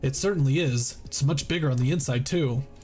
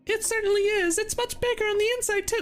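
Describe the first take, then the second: First: It is said in a plain reading voice. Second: It is said in a cute childlike put-on voice.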